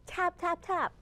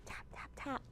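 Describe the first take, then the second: First: "tap, tap, tap" higher and voiced; bright woodpecker knocks; crisp voiced taps. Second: Voiceless whispered tap, tap, tap; soft hushed taps like a distant woodpecker. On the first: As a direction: pop each "tap" out clearly. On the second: Acted. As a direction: breathe the "tap" sounds with no voice. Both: Woodpecker tapping sound imitated.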